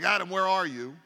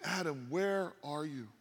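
First: It sounds angry and threatening. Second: It sounds sorrowful and heartbroken.

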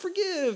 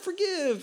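First: It is said in a soft, nice tone. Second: The same.

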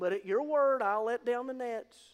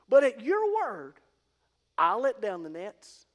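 First: 'Your' and 'I'll' carry no special emphasis. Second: 'Your' and 'I'll' carry strong emphasis. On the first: The speaker stresses his own effort. "instead of focusing on the weave" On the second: The speaker stresses trust in the other's word. "he focused on the your and the I'll"

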